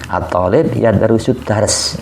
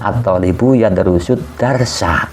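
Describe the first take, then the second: First: The final vowel endings are dropped from the words. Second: The final vowel endings are pronounced on the words. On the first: "Kalau nggak lengkap" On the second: "Jika dibaca dengan lengkap"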